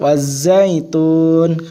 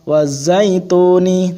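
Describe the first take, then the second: First: The word ends on the n consonant. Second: The word ends with a final vowel. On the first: The speaker calls it right. "kalau di wakaf waz zaitun" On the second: The speaker calls it wrong. "ora waz zaituni"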